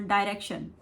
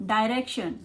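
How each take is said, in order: No difference in how they are said.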